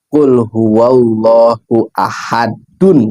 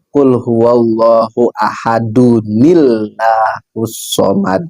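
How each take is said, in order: First: The reciter stops after ahad before the next verse. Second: Ahad links into the next verse with a nun. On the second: "kalau dibaca wasol"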